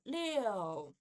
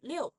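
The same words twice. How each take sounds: First: The syllable is drawn out with every vowel sound. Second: The syllable is quick with the middle vowel reduced. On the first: "It's supposed to be 六" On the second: "but faster will be 六"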